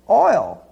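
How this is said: It is said in a Queens accent, as 'oil'.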